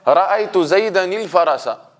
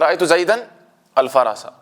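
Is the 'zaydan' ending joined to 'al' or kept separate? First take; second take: joined; separate. First: The nun runs straight into the next word. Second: The nun is kept apart from the next word.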